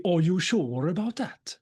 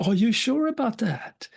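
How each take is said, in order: First: Slow, sing-song Gothenburg accent. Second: Said in the usual way. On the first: Shown as a demonstration. Speaker redoes the gunman's question for the audience, Gothenburg accent. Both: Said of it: "in Gothenburg accent, that would be".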